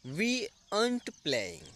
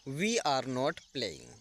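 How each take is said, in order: First: 'Are not' is shortened into one word. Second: Every word is said in full. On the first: "short तरीका" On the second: "simple तरीका"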